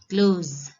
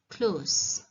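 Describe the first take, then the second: First: The word ends with a buzzing z sound. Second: The word ends with a hissing s sound. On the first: It is a verb meaning to shut. "The ending sound is z" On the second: It is an adjective meaning near. "S, not z, but s"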